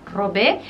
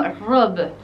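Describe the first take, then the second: First: "Robé" as ro-BEH, accented final e; stressed rising end on "Robé"; Spanish pronunciation. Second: "robe" as one syllable, rob; French "robe", final e silent; French pronunciation. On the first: Teacher gives the Spanish verb, Spanish pronunciation. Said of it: "quitémosle el acento a la E". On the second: Teacher shows the word for dress, French pronunciation. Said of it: "en francés se pronunciaría como". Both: Shown as a demonstration.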